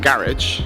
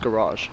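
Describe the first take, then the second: First: It is said the way London speakers say it. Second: It is said the other, non-London way. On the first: The speaker calls it right. "because we're obviously in London, so it's always been a garage" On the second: The speaker calls it wrong. "It's not pronounced garage"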